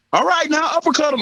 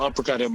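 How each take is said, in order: First: High, loud corner shout; coach yelling. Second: Said in the usual way. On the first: Retold or imitated. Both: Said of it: "I heard his coach yell".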